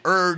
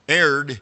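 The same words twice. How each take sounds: First: The word is said the British way. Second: The word is said the American way. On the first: "erred is the British or the English, you know, Old English version" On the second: "Erred is the American version"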